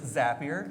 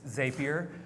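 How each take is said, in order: First: The first syllable sounds like the word 'zap'. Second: The first syllable does not sound like 'zap'. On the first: The speaker calls it right. "It is Zapier, ... We build Zaps" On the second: The speaker calls it wrong. "for the Canadians"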